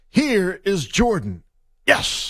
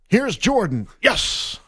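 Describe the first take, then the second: First: A long pause comes before a stretched 'yes'. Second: A short pause comes before a quick 'yes'.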